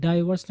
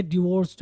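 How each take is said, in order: First: डाइवोर्स starting with DIE; mispronunciation demo. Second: डिवोर्स्ड starting with a short dih; short i opening डिवोर्स्ड; correct pronunciation. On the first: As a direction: say डाइवोर्स wrongly as DIE-vurs. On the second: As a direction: model डिवोर्स्ड as dih-VORST. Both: Shown as a demonstration. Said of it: "डाइवोर्स नहीं है".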